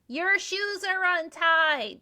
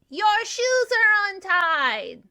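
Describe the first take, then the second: First: It is said fairly quietly. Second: It is said more loudly.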